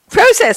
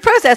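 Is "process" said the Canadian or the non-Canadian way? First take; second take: Canadian; non-Canadian. First: Process is said with a Canadian pronunciation. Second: Process is said with a non-Canadian pronunciation. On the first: "That's a Canadian pronunciation" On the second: "I say process"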